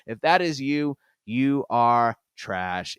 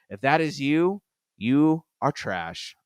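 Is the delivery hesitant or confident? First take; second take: confident; hesitant. First: It is said boldly, with proud, firm force. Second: It is said plainly, without extra force. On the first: The speaker stands fully behind the statement. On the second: The speaker half apologizes for saying it.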